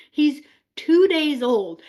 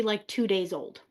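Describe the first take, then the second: First: "two" stressed, louder and slower; emphatic disbelief. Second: Said in the usual way. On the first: Shown as a demonstration. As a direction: hammer home "two days old", amazed. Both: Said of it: "I want you guys to remember".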